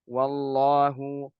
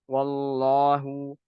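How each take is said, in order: The two takes are said the same way.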